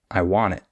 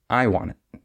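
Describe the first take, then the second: First: "I want it" leaning on want, light I; stress on want. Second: "I want it" leaning on I, weaker want; stress on I. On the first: Teacher repeating the correct model, want stressed in "I want it". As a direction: make want the strong word in "I want it". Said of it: "we would stress the want". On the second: Teacher repeating what not to say, I stressed in "I want it". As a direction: make I the strong word in "I want it". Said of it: "instead of stressing the I". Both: Shown as a demonstration.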